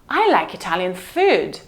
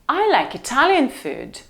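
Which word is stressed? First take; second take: food; Italian. First: The stress falls on the word food. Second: The stress falls on the word Italian. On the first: It is the food, not other Italian things. "Not fashion, not furniture, but food" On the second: It is this cuisine, not another one. "So why did you bring me tacos?"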